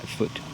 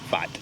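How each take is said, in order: First: The last syllable sounds like 'foot'. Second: The last syllable sounds like 'fat'. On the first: The speaker calls it wrong. "I mispronounced it yesterday. It's not foot" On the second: The speaker calls it right.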